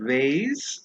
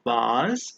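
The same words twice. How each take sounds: First: It is said in an American English accent. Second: It is said in a British English accent. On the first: "in the U S A" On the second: "in the U K"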